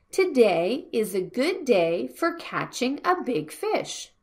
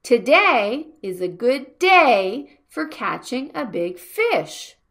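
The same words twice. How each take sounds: First: Said in the usual way. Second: "Today", "day" and "fish" punched, the rest lighter; stress on the nouns. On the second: Shown as a demonstration. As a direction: hit "day" harder than "good". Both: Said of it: "we make the sound like".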